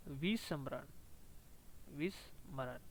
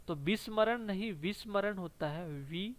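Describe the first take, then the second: First: विस्मरण repeated softly and much lower, each syllable clear; careful pronunciation. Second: Said in the usual way. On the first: Shown as a demonstration. Teacher repeating विस्मरण quietly for students to copy. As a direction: quietly model विस्मरण with a soft ending.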